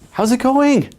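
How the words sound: The voice rises eagerly at the end. The speaker is trying too hard. The speaker calls it wrong. "your voice goes up at the end"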